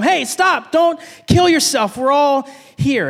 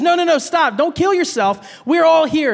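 First: Urgent higher shout, slow on the last words. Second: Urgent shout. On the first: A narrator's reading. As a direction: cry out to stop him. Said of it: "Paul shouted to him". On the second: Retold or imitated. Preacher retells Paul stopping the jailer, urgent and raised. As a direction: call out to stop the jailer. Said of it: "Paul says".

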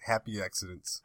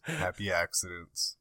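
First: Said in the usual way. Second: Slow, softer echo of "Happy accidents"; slow repeat. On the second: Shown as a demonstration.

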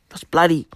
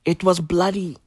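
First: Breathy unvoiced whisper of bloody. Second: Said in the usual way. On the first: Comedian confides to his audience, whispered. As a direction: lean in and whisper it like a secret. Repeats line, second whispered.

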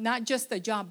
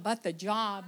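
First: Said in the usual way. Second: The job with the leaned on, set against just the job; stress on the job. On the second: Shown as a demonstration. Quoting Brother Ram's prayer to the church, stressing the. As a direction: lean on the to mean the real job.

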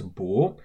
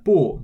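First: The changed 不 with a rising tone; second tone. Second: The first 不 with a falling tone; fourth tone. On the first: Teacher showing what 不 becomes, second tone. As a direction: say 不 rising, as before 是. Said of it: "becomes 不". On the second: Teacher recalling the tone exception, 不 in fourth tone. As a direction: say 不 falling, its normal tone. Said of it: "tone exception number four". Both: Shown as a demonstration.

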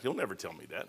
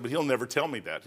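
First: Much softer and lower, muttered to himself; quiet aside. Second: Said in the usual way. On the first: Retold or imitated. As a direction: drop it to a private mumble. Repeats the line twice.

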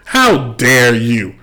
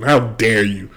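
First: "How dare you", each word drawn out slowly; slow emphatic rebuke. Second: Said in the usual way. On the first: Real, not acted.

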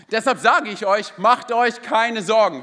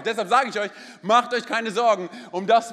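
First: Slow, weighty reading of the verse; solemn, slow verse reading; emphatic scripture reading. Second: Said in the usual way. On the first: Acted. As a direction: lean on each word like a proclamation.

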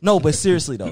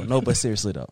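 First: Louder insistent take; emphatic. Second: Said in the usual way. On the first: Real, not acted. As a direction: push the words out firmly.

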